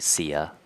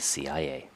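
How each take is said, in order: First: It is spoken as a single word. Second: It is spoken as separate letters. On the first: The speaker calls it wrong. "We don't say C I A" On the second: The speaker calls it right. "we usually say C I A"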